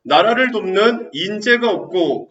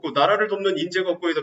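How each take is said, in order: First: 나라를 돕는 인재가 없고 slow and loud, every word stressed; slow emphatic reading. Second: Said in the usual way. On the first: Shown as a demonstration. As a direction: underline it with your voice for the students. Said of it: "충신부재라고 하나 써놓으세요". (학생들이 밑줄 치도록 또박또박 천천히 크게 읽기) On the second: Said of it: "미치시고요".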